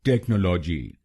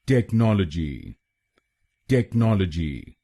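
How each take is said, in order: First: technology said TEK-nolo-ji, stress on the first syllable; wrong stress on TEK. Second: technology as tek-NOL-o-ji; correct stress on NOL. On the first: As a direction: demonstrate the mistake by hitting टेक. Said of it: "गलत pronunciation में हम पहले शब्दांश पर यानी टीईसीएच पर जोर डालते हैं". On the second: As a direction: model the right way with weight on नॉल. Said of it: "इसको बोलिए". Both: Shown as a demonstration.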